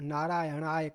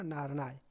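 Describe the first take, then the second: First: Every syllable of the word is pronounced. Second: The middle syllables are dropped from the word. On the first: The speaker calls it right. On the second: The speaker calls it wrong.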